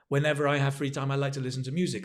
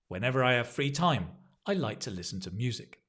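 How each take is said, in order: First: It runs together without any pause after time. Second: There is a pause after the word time. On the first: The speaker calls it wrong. "don't feel that you must go ba ba ba ba ba" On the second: The speaker calls it right. "notice the pause"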